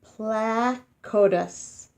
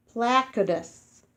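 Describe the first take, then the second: First: Placotus said very slowly, PLA-co-tus; careful pronunciation. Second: Said in the usual way. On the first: Shown as a demonstration. Teaching children a dinosaur name, very slow. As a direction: stretch Placotus out syllable by syllable. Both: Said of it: "you say it like this".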